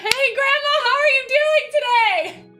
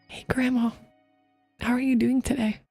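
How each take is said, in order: First: It is said very loudly and big. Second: It is said in a sad, emotional way.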